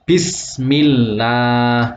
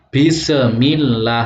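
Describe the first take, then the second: First: The s sound flows smoothly without bounce. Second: The s sound has a bouncing release. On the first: The speaker calls it right. "bacanya harus" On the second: The speaker calls it wrong. "tidak boleh membacanya mantul ... salah"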